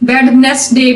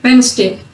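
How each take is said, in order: First: The d before the n is sounded. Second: The d before the n is silent. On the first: The speaker calls it wrong. "वेडनेसडे भी नहीं है" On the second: The speaker calls it right. "ये वेंसडे"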